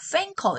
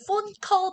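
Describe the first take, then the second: First: The first vowel sounds like 'a'. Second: The first vowel sounds like 'oh'. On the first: "약간 팬컬 이렇게 발음하시는" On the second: "폰컬 발음을"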